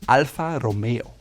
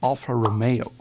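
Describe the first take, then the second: First: The R in Romeo is rolled. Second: The R in Romeo is not rolled. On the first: The speaker calls it right. "the R is rolled in the front of the tongue" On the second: The speaker calls it wrong. "as Americans might say"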